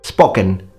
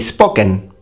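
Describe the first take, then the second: First: The 'o' is a pure single vowel. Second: The 'o' is a pure single vowel.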